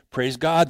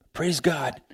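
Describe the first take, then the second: First: Said in the usual way. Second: "Praise God" whispered, softer. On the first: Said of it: "repeated softly later". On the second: Real, not acted. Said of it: "whispered repeat of praise".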